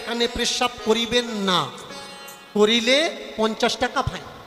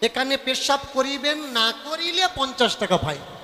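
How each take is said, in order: First: The pause comes right after 'na'. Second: The pause comes right before 'na'. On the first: Urinating here is forbidden and fined. "দেখবেন দেয়ালে লেখা থাকে" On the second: Not urinating here is what gets fined. "এবার এরা এটাকে ঘুরিয়ে পড়ে"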